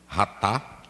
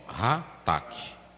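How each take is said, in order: First: The word ends on the vowel without a k. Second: The word ends with a k sound and vowel. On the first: This is how some people say it. The speaker calls it wrong. "Alguns falam de ratá" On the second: This is the true Hebrew pronunciation. The speaker calls it right. "a verdadeira pronúncia"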